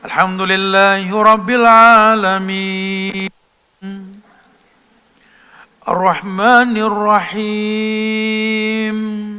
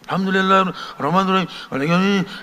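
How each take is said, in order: First: It is recited calmly with pauses between phrases. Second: It is recited hastily without pausing between phrases. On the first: The speaker calls it right. "Jadi ada tumak ninahnya" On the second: The speaker calls it wrong. "jangan ngepot. ... ya bukan begitu"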